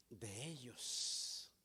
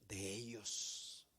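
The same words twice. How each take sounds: First: "de ellos" dragged out very slowly and low; stress on de ellos. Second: "de ellos" drawn out very slowly and low; stress on de ellos. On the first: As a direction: linger heavily on "de ellos". (arrastra "de ellos" muy despacio) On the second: (alarga "de ellos" muy despacio y grave) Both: Shown as a demonstration.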